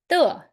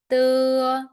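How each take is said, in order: First: The pitch falls sharply from high. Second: The pitch stays high and level.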